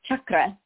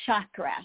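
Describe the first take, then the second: First: The word begins with a hard ch sound. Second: The word begins with a soft sh sound. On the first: The speaker calls it right. "And so it's that hard CH" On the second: The speaker calls it wrong. "I understand why they think so"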